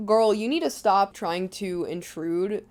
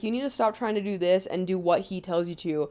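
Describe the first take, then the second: First: Slow, blunt mock scolding; mock mom laying it down slowly; blunt retelling. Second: Toned-down mom's advice, lightly imitated; a touch milder, even retold advice; nicer retelling. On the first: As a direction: retell it as a frank telling-off. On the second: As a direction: retell the telling-off more gently. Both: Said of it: "She says it nicer".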